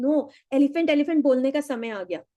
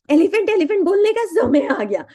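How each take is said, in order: First: Said in the usual way. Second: Higher and louder, driving "elephant elephant" home; louder repeat. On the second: Shown as a demonstration. Coach urging the class, loud and emphatic. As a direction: say it again with more force.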